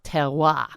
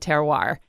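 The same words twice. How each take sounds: First: It is said with a French pronunciation. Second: It is said with an American pronunciation. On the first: The speaker calls it right. "is a French word and probably really pronounced terroir" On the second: The speaker calls it wrong. "us dumb Americans say terroir"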